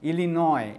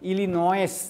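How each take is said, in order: First: The word ends without any s sound. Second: The word ends with an audible s sound. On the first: The speaker calls it right. "এসটা বাদ চলে যাবে" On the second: The speaker calls it wrong. "ইলিনয়েস না"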